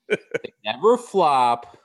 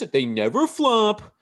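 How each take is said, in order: First: It is said in the speaker's normal voice. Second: It is said in an exaggerated put-on voice.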